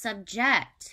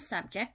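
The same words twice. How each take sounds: First: The stress is on the second syllable. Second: The stress is on the first syllable. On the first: It is a verb meaning to force someone. "In the verb format, this word is pronounced subject" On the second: It is a noun meaning the topic. "So noun, the thing that you're talking about"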